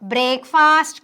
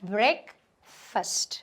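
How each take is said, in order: First: It is said sound by sound as spelled. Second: It is said in its natural reduced form. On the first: The speaker calls it wrong. "బ్రేక్ఫాస్ట్ కాదండి" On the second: The speaker calls it right. "but breakfast is the pronunciation"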